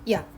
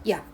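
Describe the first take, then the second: First: A short glide merges straight into one syllable. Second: The same.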